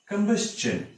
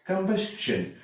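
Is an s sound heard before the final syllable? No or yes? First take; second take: yes; yes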